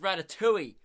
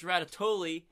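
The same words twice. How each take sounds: First: The word is said without an L sound. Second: The word is said with an L sound. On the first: The speaker calls it right. "it's pronounced" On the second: The speaker calls it wrong. "it's not pronounced"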